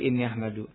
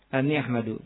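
First: The first word begins with an 'i' vowel. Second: The first word begins with an 'a' vowel. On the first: The predicate is a full clause. "khabarnya khabar apa maksudnya? Jumlah kan?" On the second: The predicate is a single noun phrase. "Boleh juga apa? Anni ahmadu"

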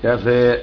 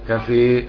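First: The final vowel is slightly fronted, between a and e. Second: The final vowel is fully fronted toward e. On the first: "كفي تقليل ورش بالخلاف" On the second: "كفي حمزة بسو خلف لمالة"

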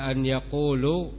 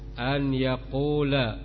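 First: The second word ends with a 'u' vowel. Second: The second word ends with an 'a' vowel. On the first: The speaker calls it wrong. "maka tampak kesalahannya" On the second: The speaker calls it right. "kalian harakati bahwa lamnya fathah"

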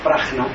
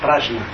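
First: The j is given a Spanish sound. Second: The j is given a French sound. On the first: "nosotros decimos Prajna" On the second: "allá en Francia dicen Prajna"

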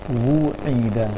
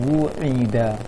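The two takes are said the same way.

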